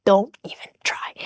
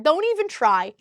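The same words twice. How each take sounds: First: Softer, breathless whispered dismissal. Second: Said in the usual way. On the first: Real, not acted. Dismissing her ex's excuses, fading to a whisper. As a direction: let the phrase fade into a whisper.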